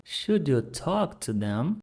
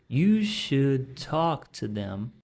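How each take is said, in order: First: "Should you talk to them?" with a rising question tune; question rise. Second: "You should talk to them." read as a plain affirmation; statement. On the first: Teacher models a question for students. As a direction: ask it, voice going up at "them". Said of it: "considerado uma pergunta". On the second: Teacher reads the affirmative for contrast. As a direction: state it, slow and flat at the end. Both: Shown as a demonstration.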